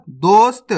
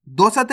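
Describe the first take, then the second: First: दोस्त as "dost", long o; correct half-letter reading. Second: दोस्त opened up as "do-sat"; wrong full-letter reading. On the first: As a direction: run s straight into t in दोस्त. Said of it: "दोस्त नहीं पढ़ना". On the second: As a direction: put a vowel after s in दोस्त. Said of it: "नहीं पढ़ना". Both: Shown as a demonstration.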